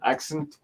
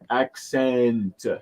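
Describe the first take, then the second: First: The last syllable is cut short. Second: The last syllable is given its full length. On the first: The speaker calls it wrong. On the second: The speaker calls it right.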